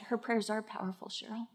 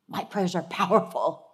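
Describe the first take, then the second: First: Soft, fast inner voice of the Lord; plain. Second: Said in the usual way. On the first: Retold or imitated. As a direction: say it hushed, like a quiet inner word. The Lord speaks inwardly.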